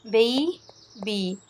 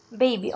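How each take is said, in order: First: Put-on "Baby" split as BAY... BEE; "Baby" drawn out, pause between "Ba" and "by"; syllable by syllable. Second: Said in the usual way. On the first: Shown as a demonstration. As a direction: stretch "Baby" into two separate syllables. Teacher splits word into syllables.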